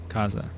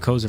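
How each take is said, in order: First: The first syllable sounds like 'cop'. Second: The first syllable does not sound like 'cop'. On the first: The speaker calls it right. "you pronounce the co the same way you cop" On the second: The speaker calls it wrong. "I was calling you Koza for a long time"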